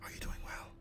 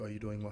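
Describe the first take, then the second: First: It is said in a whisper. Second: It is said in a normal voice.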